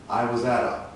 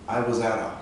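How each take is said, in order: No difference in how they are said.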